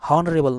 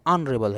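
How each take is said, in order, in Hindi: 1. शब्द की शुरुआत h की आवाज़ से होती है। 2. शब्द की शुरुआत स्वर की आवाज़ से होती है। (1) "हॉनरेबल नहीं ऑनरेबल है" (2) "हॉनरेबल नहीं ऑनरेबल है"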